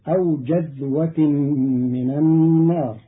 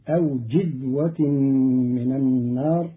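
First: The first syllable has the vowel a. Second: The first syllable has the vowel i.

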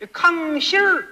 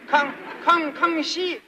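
First: The word ends with an r-coloured final. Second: The word ends without an r-coloured final.

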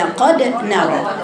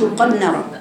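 First: The d is released with a clear bounce. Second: The d is muffled and merged into the n. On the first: The speaker calls it right. "هي قد نرى" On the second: The speaker calls it wrong. "عدم بيان القلقلة، بعض الناس قد نرى"

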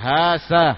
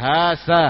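First: The middle consonant is an 's' sound. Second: The same.

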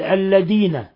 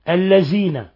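First: The consonant after the l sounds like d. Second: The consonant after the l sounds like z. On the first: "أو دال" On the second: "قلب الذال في الذين إلى زاي"

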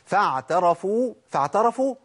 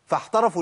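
First: The consonant is a voiced ain sound. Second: The consonant is a breathy haa sound. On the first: The speaker calls it right. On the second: The speaker calls it wrong.

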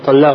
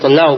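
First: The word ends with an 'a' vowel. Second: The word ends with a 'u' vowel. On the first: The speaker calls it wrong. "нет" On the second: The speaker calls it right. "правильно талля'у будет"

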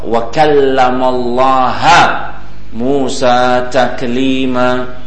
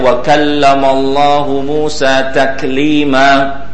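First: The word Allah ends with an a vowel. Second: The word Allah ends with a u vowel. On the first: Moses spoke to God. The speaker calls it wrong. "dia ganti dibaca dengan nasab" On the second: God spoke to Moses. The speaker calls it right. "yang harusnya dibaca dengan rafa"

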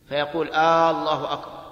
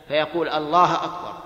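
Both takes have the same delivery.

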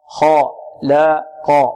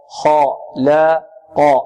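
The two takes are said the same way.

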